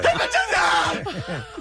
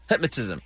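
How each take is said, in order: First: The word is said loudly, almost shouted. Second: The word is said at normal, quieter volume.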